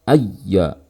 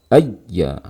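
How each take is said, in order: Both takes have the same delivery.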